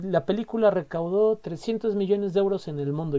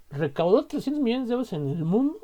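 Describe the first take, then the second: First: Said in the usual way. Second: A touch of amazement, pitched higher; astonished. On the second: Shown as a demonstration. Reacting in amazement to a movie's box office. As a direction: read the figure as if you can't believe it. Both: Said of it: "Yo digo, ah, o sea".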